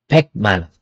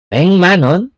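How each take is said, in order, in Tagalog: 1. Ang unang salita ay nagtatapos sa tunog na k. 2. Ang unang salita ay nagtatapos sa tunog na ng. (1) "not pek manon"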